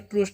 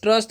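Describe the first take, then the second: First: The vowel is a long 'oo' sound. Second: The vowel is a short 'uh' sound. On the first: The speaker calls it wrong. "इसको ट्रूस्ट नहीं" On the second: The speaker calls it right. "यू का जो चरण है यहाँ पर क्या होता है, अ होता है"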